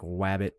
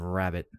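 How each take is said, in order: First: The word begins with a W sound. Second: The word begins with an R sound. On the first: This is how a speech impediment made it sound. The speaker calls it wrong. "I used to not be able to pronounce the R stuff. So I would say like wabbit" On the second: This is the standard way to say it. The speaker calls it right. "instead of rabbit"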